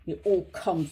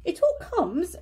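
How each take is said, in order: First: Grumpy and lower, a touch sulky; cross. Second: Firm and higher, lecturing; stern. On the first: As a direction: mutter it crossly, lower pitch. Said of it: "said Pooh crossly". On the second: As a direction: scold him sternly, pitch up. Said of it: "said Rabbit sternly". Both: A narrator's reading.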